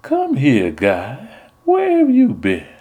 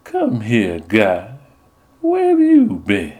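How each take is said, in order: First: Coy southern belle, rising high at the end. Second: Sweet, silky belle, soaring high on the question; silky southern belle. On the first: Nun playing Portia teases the Soothsayer as a southern belle. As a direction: flirt like a southern belle, pitching up. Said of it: "she spoke like a southern belle". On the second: Nun restarting the scene coaxes Earl in a silky belle voice. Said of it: "with a silky, sweet voice". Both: Retold or imitated.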